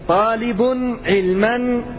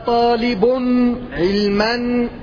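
Both takes have the same delivery.

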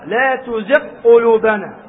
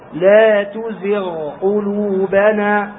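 First: The gh sound is merged into the following q. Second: The gh sound is kept soft and separate. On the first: The speaker calls it wrong. "أدخل الغين في القاف" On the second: The speaker calls it right. "فتقرأ هنا برخاوة الغين"

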